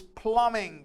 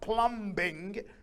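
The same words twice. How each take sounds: First: The B sound is left out of the word. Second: The B sound is pronounced in the word. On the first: The speaker calls it right. "the noun is plumbing" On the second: The speaker calls it wrong. "not plumbing"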